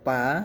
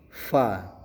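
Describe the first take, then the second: First: It starts with a popped p sound. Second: It starts with a hissing f sound. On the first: The speaker calls it wrong. "Jadi tidak dibaca pa" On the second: The speaker calls it right. "tapi dibacanya fa"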